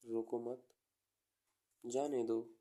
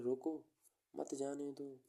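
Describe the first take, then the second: First: "रोको मत" together, clear pause, then "जाने दो"; pause after मत. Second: "रोको" alone, pause, then "मत जाने दो" together; pause after रोको. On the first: Teacher showing the comma's meaning, pause after मत. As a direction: break only after मत. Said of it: "थोड़ा pause लो". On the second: Teacher showing the other meaning, pause after रोको. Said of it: "दूसरी बात क्या कह रहा है?". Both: Shown as a demonstration.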